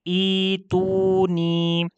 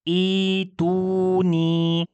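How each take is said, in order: Both takes have the same delivery.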